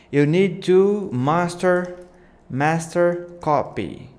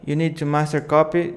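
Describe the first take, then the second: First: Slow, drawn-out and higher; slow take. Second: Quick, brisk delivery; faster take. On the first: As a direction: stretch each word out for the title animation. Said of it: "too slow". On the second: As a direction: snap through it to fit the faster animation. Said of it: "I need to make it faster". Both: Shown as a demonstration.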